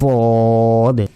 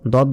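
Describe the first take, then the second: First: The first consonant is heavy and thick. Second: The first consonant is light, like a plain d. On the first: The speaker calls it right. "মোটাভাবে শক্তভাবে উচ্চারণ করতে হবে" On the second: The speaker calls it wrong. "দদ বললে কিন্তু হবে না"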